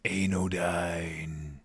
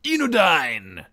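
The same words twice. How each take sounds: First: "Anodyne" low and stretched out as ay-no-dyne; slow, deep-pitched "Anodyne" with a long A first; corrected pronunciation. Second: "Enodyne" shouted long, starting with an EE sound; loud, high, drawn-out "Enodyne" as ee-no-dyne; mistaken first vowel. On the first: Streamer apologising to the subscriber, corrected long A. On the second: Streamer announcing a new subscriber, EE at the start. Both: Shown as a demonstration. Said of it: "apparently it's anodyne".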